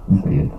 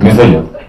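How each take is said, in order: First: It is said in a deeply compassionate tone. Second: It is said in a condemning, envious tone. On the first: The speaker feels sorry for the person. The speaker calls it right. "можно сказать по-другому. С глубоким состраданием" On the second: The speaker looks down on the person. The speaker calls it wrong. "Он так говорит, только на стене, потому что есть какая-то зависть еще"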